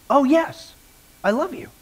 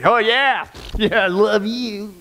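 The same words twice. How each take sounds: First: Said in the usual way. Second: Slow, drawn-out sarcasm; mocking, insincere agreement; sarcastic. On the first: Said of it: "in an even tone correctly". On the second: Shown as a demonstration. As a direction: drag the words out with obvious sarcasm. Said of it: "say the exact same word sarcastically".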